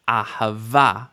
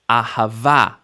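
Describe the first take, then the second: First: The stress falls on the last syllable. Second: The stress falls on the last syllable.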